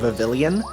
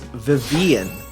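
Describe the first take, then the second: First: The double L is pronounced as an L sound. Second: The double L is silent, with no L sound. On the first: The speaker calls it wrong. "that is not how you pronounce it" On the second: The speaker calls it right. "the double L is silent"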